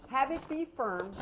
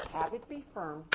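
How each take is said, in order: First: Firm, higher and louder. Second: Said in the usual way. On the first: Shown as a demonstration. Teacher showing parents a firm voice, firm and steady. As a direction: say it firmly.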